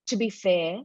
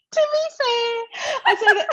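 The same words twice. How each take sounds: First: Said in the usual way. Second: "To be fair" high and laughing through it. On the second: Shown as a demonstration. Amused at her own habit, laughing "To be fair". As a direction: laugh while you say "To be fair". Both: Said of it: "I start saying things like".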